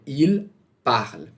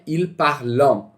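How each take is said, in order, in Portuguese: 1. O verbo termina com um som de L simples. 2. O verbo termina com uma vogal nasal pronunciada. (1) "é il parle ... não pronunciem o ent" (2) "não é il parlant"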